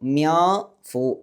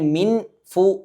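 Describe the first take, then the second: First: The n is hidden in a nasalized vowel. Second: The n sound is pronounced clearly. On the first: The speaker calls it right. "മറച്ചു വെച്ചുകൊണ്ട് മണിക്കണം" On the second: The speaker calls it wrong. "മിൻ ഫു എന്ന് പറയാതെ"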